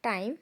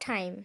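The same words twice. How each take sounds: First: The t is plain and unaspirated. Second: The t is breathy and aspirated. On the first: The speaker calls it wrong. "Not টাইম" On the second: The speaker calls it right. "এটার pronunciation হবে টাইম ... টয়ের উচ্চারণ ঠয়ের মতো হয়"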